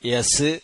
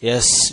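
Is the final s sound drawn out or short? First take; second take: short; drawn out. First: The final s sound is cut short. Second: The final s sound is drawn out slightly. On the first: The speaker calls it wrong. "യസ് എന്ന് പറയരുത്" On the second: The speaker calls it right. "അല്പം നീളണം"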